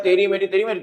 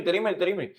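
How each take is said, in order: First: Sung line. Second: तेरी मेरी sung again as a fading echo, much softer. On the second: Teacher showing students how a song echoes in a hall, fading echo. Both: Shown as a demonstration. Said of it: "कोई गाना गाता है".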